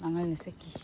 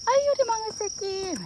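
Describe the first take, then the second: First: Said in the usual way. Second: High, doting, loving tone; doting coo. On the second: Shown as a demonstration. Owner shows that a loving tone hides the insult, doting coo. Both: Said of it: "감정을 담으면 알 수가 없어".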